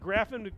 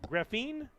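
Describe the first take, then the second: First: The name is not said like 'graphene'. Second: The name is said like 'graphene'. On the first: The speaker calls it wrong. "not Graffin" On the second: The speaker calls it right. "Graphene is how it's supposed to be pronounced"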